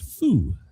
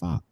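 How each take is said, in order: First: The vowel sounds like 'oo'. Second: The vowel sounds like 'ah'. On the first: The speaker calls it right. "traditionally pronounced foo" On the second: The speaker calls it wrong. "instead of fa"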